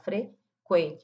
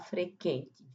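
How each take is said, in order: First: The u after the q is pronounced. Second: The u after the q is silent. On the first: The speaker calls it right. "falar frequente. Marca aí o som do U" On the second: The speaker calls it wrong. "não vamos falar frequente"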